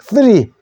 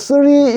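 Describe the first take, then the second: First: It starts with a tongue-between-teeth th sound. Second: It starts with a plain s sound. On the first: The speaker calls it right. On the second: The speaker calls it wrong.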